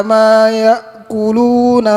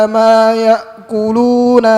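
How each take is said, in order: The two takes are said the same way.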